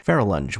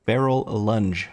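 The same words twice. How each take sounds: First: "Feral Lunge" run together quickly without a gap; as one word. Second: "Feral Lunge" very slowly, the two words pulled apart; careful pronunciation. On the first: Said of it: "One word". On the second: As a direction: sound out "Feral Lunge" word by word. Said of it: "Why is that so hard to say?". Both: Shown as a demonstration.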